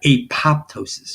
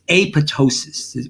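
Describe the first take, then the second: First: The second p is pronounced aloud. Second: The second p is silent. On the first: The speaker calls it wrong. "that's not apoptosis. You know, don't say that wrong" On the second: The speaker calls it right. "It's apoptosis. ... you don't say that uh, P"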